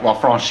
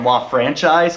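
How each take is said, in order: First: The name is said with an exaggerated French pronunciation. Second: The name is said with a plain English pronunciation. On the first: The speaker calls it wrong. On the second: The speaker calls it right.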